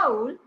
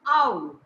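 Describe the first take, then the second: First: The word is said at normal length. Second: The word is drawn out for longer.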